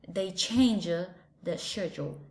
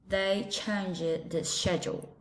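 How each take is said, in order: First: It is spoken in a British English accent. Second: The same.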